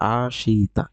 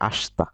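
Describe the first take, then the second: First: The vowel after the 'sh' is fully pronounced. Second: The vowel after the 'sh' is dropped. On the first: The speaker calls it wrong. "লেখা আছে আশিতা" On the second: The speaker calls it right. "কিন্তু উচ্চারণ করবেন একসাথে আস্তা"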